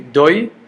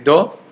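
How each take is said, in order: First: The vowel glides from o to y. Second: The vowel is a plain, steady o. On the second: "according to Sfaradim we say Do"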